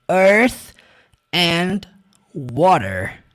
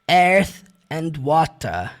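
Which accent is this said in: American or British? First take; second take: American; British. First: It is said with an American accent. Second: It is said with a British accent. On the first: "No inglês americano você vai ouvir" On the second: "no inglês britânico ele puxou um pouco mais para"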